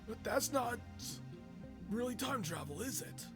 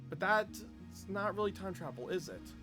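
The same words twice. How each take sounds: First: It is read in a put-on old man's voice. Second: It is read in the speaker's normal voice. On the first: The speaker calls it right. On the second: The speaker calls it wrong.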